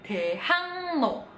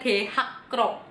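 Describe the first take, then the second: First: The middle is pronounced with an ng-n sound. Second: The middle is pronounced with a k-r sound. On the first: The speaker calls it right. "Jadinya Daehangno" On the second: The speaker calls it wrong. "bukan Daehakro"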